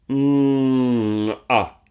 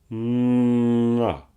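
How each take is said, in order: First: The first sound glides smoothly into the second. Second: The same.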